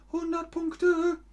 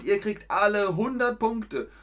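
First: Much higher, squeaky repeat; playful high-pitched echo. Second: Said in the usual way. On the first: Pretend. Teacher echoes praise playfully.

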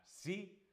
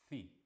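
First: "sí" begun with a clear S sound; standard S. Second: "ci" begun with th, like thee; ceceo. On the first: Teacher giving the example word before ceceo, "sí" with standard S. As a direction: say "sí" with a plain, clean S. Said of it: "la palabra sí". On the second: Teacher showing the ceceo pronunciation to students, "ci" with th. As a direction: say "ci" with tongue between teeth for a th. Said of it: "se pronunciaría". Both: Shown as a demonstration.

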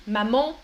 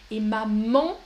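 First: "Maman" with nasal an at the end; French maman. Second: Maman with nasal final vowel; French maman. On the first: Teacher modelling the nasal in maman. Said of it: "pas mama, mais maman". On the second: Teacher insisting on French maman, not mama. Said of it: "attention, pas mama, mais maman". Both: Shown as a demonstration.

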